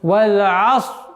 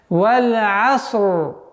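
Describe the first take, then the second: First: The final r sound is dropped. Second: The final r sound is clearly pronounced. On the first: The speaker calls it wrong. "Одна из самых также из распространенных ошибок валь аср. Буква ра не произносится" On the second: The speaker calls it right. "правильное произношение"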